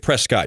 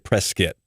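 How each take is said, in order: First: The ending does not sound like 'biscuit'. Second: The ending sounds like 'biscuit'. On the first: The speaker calls it wrong. "you don't say Prescott" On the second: The speaker calls it right. "you say Prescott"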